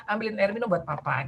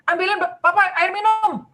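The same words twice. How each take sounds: First: A gentle, plain-level rephrase of the order; sopan diulang. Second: Suami menyuruh. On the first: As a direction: say it kindly to the child. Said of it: "paraphrasing lagi ya, mengatakan ulang". (ibu mengulang permintaan dengan sopan dan lembut) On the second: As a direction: bark it out like a demanding dad. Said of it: "suaminya nih bilang gini". (suami yang menyuruh anak dengan suara tinggi dan keras) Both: Retold or imitated.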